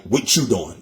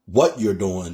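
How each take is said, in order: First: Philly slang, words run together as "What you doing"; a light, casual Philly impression; Philly accent. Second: Said in the usual way. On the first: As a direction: mimic how Philly folks squash "What you doing". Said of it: "they be like". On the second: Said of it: "Instead of".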